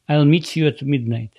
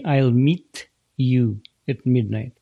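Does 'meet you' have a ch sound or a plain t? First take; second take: ch sound; plain t. First: The t in 'meet you' becomes a ch sound. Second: The t in 'meet you' stays a plain t. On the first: "Т превращается в Ч" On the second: "не «I'll meet you at midnight»"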